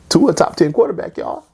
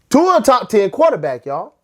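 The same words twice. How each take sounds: First: It is said at normal loudness. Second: It is said louder.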